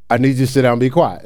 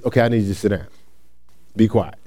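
First: Quicker, run-together second request; firmer repeat. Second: Low, softened first request; quiet instruction. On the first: Youth worker to kids who didn't listen, brisk repeat. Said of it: "let's say they didn't listen". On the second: Youth worker giving kids a first instruction, quietly. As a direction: ask calmly, keeping the voice down. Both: Shown as a demonstration.

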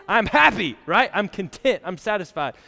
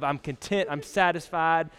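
First: Louder and higher, with glee; excited cheer. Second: Said in the usual way. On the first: Retold or imitated. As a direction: burst out like a student who just finished school. Cheering graduates after finishing school.

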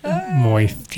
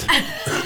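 First: Said in the usual way. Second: Moist whispered high with a lisped s. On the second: Shown as a demonstration. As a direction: say Moist breathily with a back-end lisp. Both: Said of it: "You have to say it like moist".

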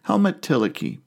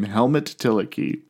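First: Helmut called out high; name called out on its own; name announced. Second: Helmut said slowly and plainly; slow plain repeat of the name. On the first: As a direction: set off the name Helmut Tillich high and clear. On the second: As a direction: say Helmut Tillich slowly, spelling it out. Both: Shown as a demonstration. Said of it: "that's a name".

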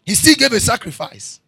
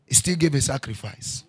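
First: Louder and higher, punching still; preached loud. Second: Said in the usual way. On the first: Acted. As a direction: hammer the repeat home. Repeated line, second preached loud.

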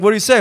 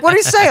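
First: Raised-pitch, eager question; curious question. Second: High, loud mock outrage; incredulous question. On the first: Retold or imitated. Family asking him for news, curious. Family asks the first time. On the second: Family shocked about the coffee, incredulous. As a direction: demand it in squeaky disbelief.

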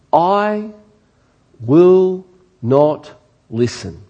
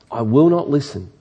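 First: I will not listen, slow and stretched, leaning on will; drawn-out refusal. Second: Said in the usual way. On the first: Shown as a demonstration. Preacher reading the people's refusal to God, slow and stressed.

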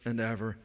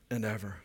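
Both takes have the same delivery.

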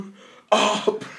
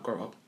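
First: Mock shout. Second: Low, soft grumble of grow up; muttered thought. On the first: Mocking loud retort to reality star. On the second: Retold or imitated. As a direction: say "Grow up" under your breath. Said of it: "But I'm just thinking, like".

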